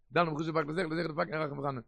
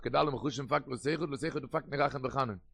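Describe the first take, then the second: First: Said in the usual way. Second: Very slow, deliberate reading of Kedal und Chushim; slow dictation. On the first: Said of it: "said slowly before". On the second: Shown as a demonstration. Rabbi to his students, dictating the phrase slowly. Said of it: "repeated after it".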